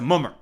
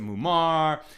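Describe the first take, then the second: First: It is said in a yeshivish, Ashkenazi-style pronunciation. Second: It is said in a standard, non-yeshivish pronunciation. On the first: "in more yeshivish speak" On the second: "You could pronounce it mumar"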